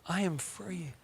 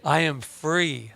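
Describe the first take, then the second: First: Softer, higher echo for the crowd; soft repeat. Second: Slow declaration. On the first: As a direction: say it gently with them. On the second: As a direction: stretch it out slowly. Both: Shown as a demonstration. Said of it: "Can you say it with me?".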